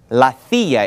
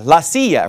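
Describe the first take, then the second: First: The word begins with a TH sound. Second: The word begins with an S sound. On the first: This is how people in northern Spain would say it. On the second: This is the familiar form most people know.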